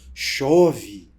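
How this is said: It is said with admiration.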